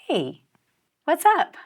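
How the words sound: It is said in a warm, loving way.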